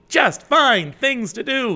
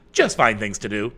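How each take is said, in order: First: Just find things to do, high, loud and slow with JUST hit hard; emphatic reread. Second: Said in the usual way. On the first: Shown as a demonstration. Host rereading Jennifer's advice with firm emphasis. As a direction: lean on "Just" and spell it out slowly. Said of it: "I'm gonna re-up that one". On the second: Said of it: "here's Jennifer saying".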